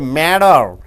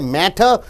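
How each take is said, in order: First: The middle consonant is a soft D sound. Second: The middle consonant is a clear T sound. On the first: The speaker calls it right. "you say matter" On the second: The speaker calls it wrong. "You don't say matter"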